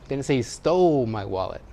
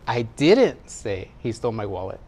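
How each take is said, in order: First: The word "stole" carries the stress. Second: The word "say" carries the stress. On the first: It was borrowed, not taken. "He borrowed it" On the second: It was implied rather than said. "Maybe I implied it"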